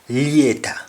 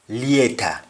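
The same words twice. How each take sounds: First: It is said in a Jamaican accent. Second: It is said in a Jamaican accent.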